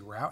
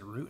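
First: The word rhymes with out. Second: The word rhymes with boot. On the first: "I usually say route" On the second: "I guess if you say root, R-O-O-T"

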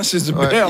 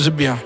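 First: The word Bear does not sound like bière. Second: The word Bear sounds like French bière. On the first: The speaker calls it right. "c'est pas la bière" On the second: The speaker calls it wrong. "ça ne se prononce pas comme ça"

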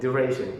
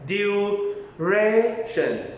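First: The word is said at natural speed. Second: The word is said slowly and carefully. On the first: "พอพูดให้ใส่ความเป็นธรรมชาติเข้าไป" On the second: "ลองเริ่มจากช้าๆก็ได้"

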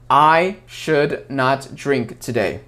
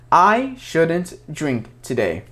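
First: Not is said as a separate full word. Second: Not is contracted onto the verb as shouldn't. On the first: The speaker calls it wrong. "это будет звучать неестественно" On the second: The speaker calls it right. "чтобы звучать как настоящий американец, вы должны сказать I shouldn't drink today"

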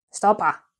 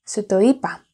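First: The words are merged into two short syllables. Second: Every word is said separately in full.

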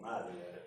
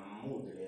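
First: The first vowel sounds like 'ah'. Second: The first vowel sounds like 'oo'. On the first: This is how the name is actually pronounced. "es madler como se pronuncia" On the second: This follows the written spelling. "mudler es, está escrito"

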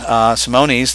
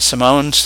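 First: The name is said with an extra final syllable. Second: The name is said without an extra final syllable. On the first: The speaker calls it wrong. "that a lot of people call them" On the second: The speaker calls it right. "Their correct pronunciation is the Simones"

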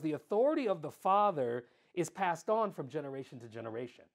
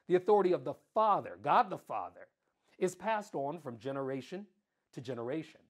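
First: It is said at normal speed. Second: It is said slowly and deliberately.

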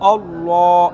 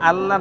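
First: The L sound is heavy and full-mouthed. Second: The L sound is thin and light. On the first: The speaker calls it right. "এই মুখটাকে যে আপনি ফোর করলেন, মোটা করলেন" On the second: The speaker calls it wrong. "আল্লাহ না বলে"

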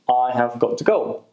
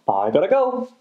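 First: 'Have got to' is said as full words. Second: 'Have got to' is reduced to 'gotta'. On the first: "got to" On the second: "And we also use gotta"

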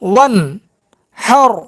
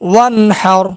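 First: The syllables are said separately with breaks. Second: The syllables are said joined in one flow. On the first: "ভাঙ্গা ভাঙ্গা উচ্চারণ" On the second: "একসঙ্গে উচ্চারণ"

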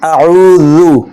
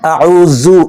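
First: The z sound is pronounced softly. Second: The z sound is pronounced hard. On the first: The speaker calls it right. "জালকে নরমভাবে উচ্চারণ করতে হবে" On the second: The speaker calls it wrong. "এরকম না"

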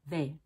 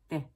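First: The vowel is a full, clear long A. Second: The vowel is not a full long A. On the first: The speaker calls it right. "make sure your tongue tip dives down so that you get this shape" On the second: The speaker calls it wrong. "if you just go they, they, and you don't dive down"

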